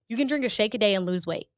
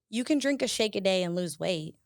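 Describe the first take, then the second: First: It sounds like a confident, emphatic statement. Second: It sounds unsure, like a question.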